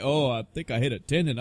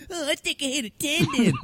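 First: Said in the usual way. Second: High, whiny mocking repeat; mocking echo. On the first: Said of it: "He's like". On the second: Host mocking the nurse's apology in a high whiny echo. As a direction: parrot him back in a silly high voice. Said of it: "I was like".

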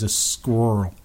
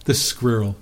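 First: Badly faked American "squirrel", middle letters swallowed; American accent. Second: "squirrel" in an English accent, two syllables; English-accented "squirrel", every letter pronounced. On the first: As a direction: attempt "squirrel" in an American accent, slurred into one syllable. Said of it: "say it with an American accent". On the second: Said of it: "say it in an English accent". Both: Shown as a demonstration.

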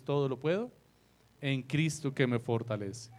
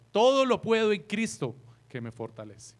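First: Said in the usual way. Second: "Todo" hit higher and louder, the rest trailing off; stress on Todo. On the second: Shown as a demonstration. Preacher showing the flock the misplaced stress on "Todo". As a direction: lean hard on the first word "Todo". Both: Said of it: "hacemos un énfasis en la primera parte".

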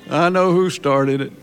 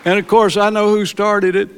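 First: Said in the usual way. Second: Loud, high proclaiming burst; emphatic declaration. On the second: Real, not acted. Preacher tells church the Lord restarted his heart, loud proclamation. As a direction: proclaim it to the congregation.

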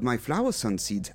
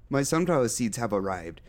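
First: "flower sun seeds" with the two halves swapped; word mix-up. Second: "sunflower" said the normal way, sun first; corrected word. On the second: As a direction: say "My sunflower seeds" correctly now. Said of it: "Oh, yeah. I am a silly goose". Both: Acted.

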